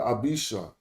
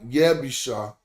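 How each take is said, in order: First: The name begins with a plain vowel sound. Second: The name begins with a 'y' sound. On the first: "So I said Abisha" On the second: "Some would say Y, Yebisha"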